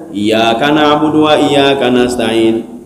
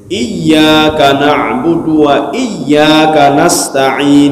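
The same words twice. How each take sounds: First: The y in iyyaka is short, single. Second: The y in iyyaka is held doubled. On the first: The speaker calls it wrong. "Kita bacanya ... kagak ada dua huruf ... Huruf ya sudah hilang" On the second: The speaker calls it right. "Contoh begini"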